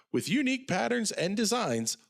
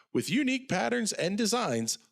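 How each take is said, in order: The two takes are said the same way.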